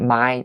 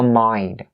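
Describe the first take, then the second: First: The word ends without an N sound. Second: The word ends with a clear N sound. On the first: The speaker calls it wrong. "we say my, ... there's no N sound" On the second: The speaker calls it right. "So mind, mind"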